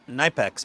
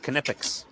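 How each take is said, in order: First: The name is said the common English way. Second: The name is said the German way. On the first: This is how most people say the name. The speaker calls it wrong. "People call it Knipex" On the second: This is how the Germans say the name. The speaker calls it right. "but it's Knipex. Ask the Germans"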